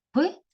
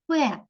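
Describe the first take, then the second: First: П as a bare consonant, not its letter name; sound of п. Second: П said as its name, "pe", drawn out; name the letter п with a long e. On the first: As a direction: release п with a short neutral vowel. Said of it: "Звук п". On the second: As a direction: say п slowly as "pe". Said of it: "буква п". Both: Shown as a demonstration.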